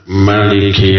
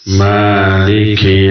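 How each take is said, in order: First: The first vowel is held short. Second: The first vowel is held long. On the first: "dengan dipendekkannya Ma" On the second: "dengan dipanjangkannya Ma"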